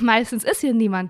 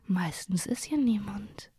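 First: It is said playfully, with a wink. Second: It is said in a threatening, ominous way.

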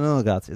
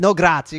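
First: It is said quietly, mumbled under the breath. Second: It is said in an exaggerated, overly lively way.

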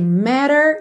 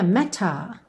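First: The t is a soft flap, like a d. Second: The t is a clear, crisp t sound. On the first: "Estamos com sotaque americano" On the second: "Num sotaque mais britânico, a gente teria matter, matter, ok? O T bem marcadinho"

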